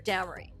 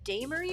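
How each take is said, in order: First: The A is said as a short vowel. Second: The A is said as a long vowel. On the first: "or the short A?" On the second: "Is it the long A"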